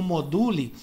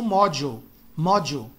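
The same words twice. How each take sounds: First: Module as mo-DOO-lee; read as spelt. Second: Module as MOD-joo, with a J sound; English pronunciation. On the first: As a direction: read module letter for letter the Portuguese way. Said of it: "se escreve como". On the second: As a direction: say module the American way. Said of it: "eles pronunciam lá como". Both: Shown as a demonstration.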